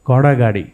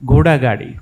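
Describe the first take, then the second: First: The first vowel is wide and open. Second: The first vowel is narrow and close. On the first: This is the regional home pronunciation. The speaker calls it wrong. "તમે ઘોડાગાડી એમ બોલ્યા" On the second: This is the accepted city pronunciation. The speaker calls it right. "નહીં છે ઘોડાગાડી"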